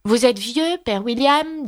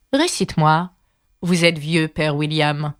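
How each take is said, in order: First: High-pitched, lilting recitation; reciting a poem. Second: Ordering caterpillar. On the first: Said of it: "joignit les mains et commença". (récitation, voix aiguë) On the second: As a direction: state the title as an order. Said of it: "ordonna la chenille". (chenille qui ordonne, ton posé) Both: A narrator's reading.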